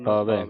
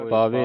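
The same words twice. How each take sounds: First: ਪਾਵੈ with an open final "eh"; double-lanv ending. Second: ਪਾਵੇ with a closed final "ay"; wrong single-lanv ending. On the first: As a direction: open the last vowel of ਪਾਵੈ. (ਪਾਵੈ, ਦੁਲਾਵਾਂ ਨਾਲ) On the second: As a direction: close the last vowel of ਪਾਵੇ. (ਪਾਵੇ, ਇੱਕ ਲਾਂ ਨਾਲ) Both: Shown as a demonstration. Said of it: "ਨਹੀਂ ਪੜ੍ਹਨਾ".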